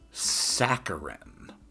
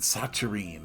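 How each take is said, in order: First: The double C is not said as ch. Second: The double C is said as a ch sound. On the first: The speaker calls it right. "I was not even close. It is saccharin" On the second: The speaker calls it wrong. "which would make a double C a uh, ch sound"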